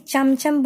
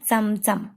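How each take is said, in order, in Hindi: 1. यह शब्द हिंदी तरीके से बोला गया है। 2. यह शब्द मराठी तरीके से बोला गया है। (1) "हिंदी में चमचम बोलते हैं ना हम" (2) "मराठी में इसका प्रोनाउंसिएशन होगा चमचम"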